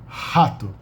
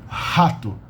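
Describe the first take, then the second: No difference in how they are said.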